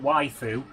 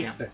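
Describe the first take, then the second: First: The final vowel is fully voiced and clear. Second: The final vowel is whispered, almost silent. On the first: The speaker calls it wrong. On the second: The speaker calls it right.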